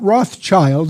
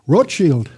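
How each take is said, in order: First: The name is said with an American pronunciation. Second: The name is said with a German pronunciation. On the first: The speaker calls it wrong. "That's mispronounced by most Americans" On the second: The speaker calls it right. "That's the German word for red shield"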